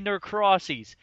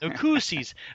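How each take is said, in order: First: The name starts with the sound 'Norcross'. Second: The name is said in its usual form. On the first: The speaker calls it wrong. "and I say Norcrossies" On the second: The speaker calls it right. "it's supposed to be called"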